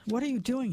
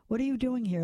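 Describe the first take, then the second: First: Mild demand, pitched higher. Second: Mild plea, pitched higher; pleading. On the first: Lars catches a woman going through his things, mildly demanding. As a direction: challenge them with a touch of force. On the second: Lars questions the struggling woman, more plea than demand. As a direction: ask with a touch of pleading, understated. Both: A narrator's reading. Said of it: "more a plea now than a demand".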